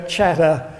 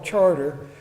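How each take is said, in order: First: The r sounds are dropped, Boston style. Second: The r sounds are clearly pronounced.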